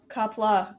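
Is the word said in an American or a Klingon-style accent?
American. It is said in a plain American accent. The speaker calls it wrong.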